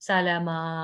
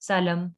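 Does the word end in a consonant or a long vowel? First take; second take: long vowel; consonant. First: The word ends on a drawn-out 'a' vowel. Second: The word ends abruptly on the final consonant. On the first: The speaker calls it right. "ठीक है" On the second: The speaker calls it wrong. "इसको ऐसे नहीं पढ़ेंगे"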